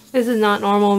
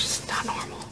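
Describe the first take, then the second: First: Said in the usual way. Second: Barely voiced, very soft whisper; hushed, overwhelmed aside; stunned whisper. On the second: Real, not acted. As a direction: whisper it to yourself in disbelief. Stunned, hands shaking over the book.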